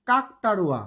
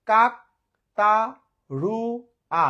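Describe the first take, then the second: First: Said in the usual way. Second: কাকতাড়ুয়া split as "kak - ta - ru - a"; four syllables, each alone with a pause. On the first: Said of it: "ধরেন যদি বলি". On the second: Shown as a demonstration. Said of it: "চারবারে উচ্চারণ করলাম". (কাকতাড়ুয়া চার ভাগে, থেমে থেমে)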